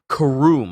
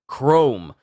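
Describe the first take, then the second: First: The name is said with two syllables. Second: The name is said as one syllable. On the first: The speaker calls it wrong. "I thought it was just called Karoom or K-Room" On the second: The speaker calls it right. "he just calls it Chrome"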